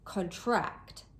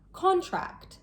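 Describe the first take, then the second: First: The stress is on the second syllable. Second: The stress is on the first syllable. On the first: It means to become smaller. "As a verb, the stress is placed on the second syllable" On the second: It names an agreement. "As a noun, the stress is placed on the first syllable"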